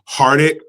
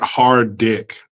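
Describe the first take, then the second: First: It is said with a single D sound. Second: It is said as two words, hard dick. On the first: The speaker calls it right. "I think it's Hardick" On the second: The speaker calls it wrong. "not hard dick"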